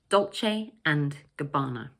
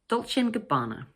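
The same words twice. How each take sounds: First: Each word is said separately and clearly. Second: The words run together and 'and' almost vanishes. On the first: The speaker calls it wrong. "You can say each word separately if you like" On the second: The speaker calls it right. "connect the three words together so that the word and almost disappears"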